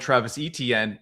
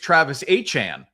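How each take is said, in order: First: The surname is said like Etienne. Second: The surname is said like Achane. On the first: This is how most people say it. The speaker calls it wrong. "Everybody called him" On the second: This is how the player says it. The speaker calls it right.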